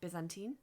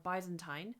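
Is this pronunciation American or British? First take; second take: American; British. First: It is said with an American pronunciation. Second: It is said with a British pronunciation. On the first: "I think the Americans say Byzantine" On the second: "I think in English we say a Byzantine"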